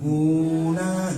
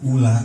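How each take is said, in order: First: The first vowel is drawn out long. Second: The first vowel is short and quick. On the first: The speaker calls it wrong. "jangan dibaca panjang. Jadi jangan gini" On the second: The speaker calls it right. "Jadi jangan dibaca panjang, ula aja udah langsung"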